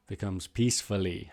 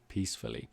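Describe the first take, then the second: First: Said in the usual way. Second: Soft and low. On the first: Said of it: "How was the baby sleeping?". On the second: Shown as a demonstration. Teacher illustrates a sleeping baby.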